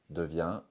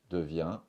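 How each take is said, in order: No difference in how they are said.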